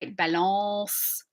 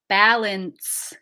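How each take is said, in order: First: It ends on a nasalized vowel without N. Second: It ends with a full, clearly closed N. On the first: "it ends on a nasalized vowel. We don't hit that N sound for real" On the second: "We need to hit that N"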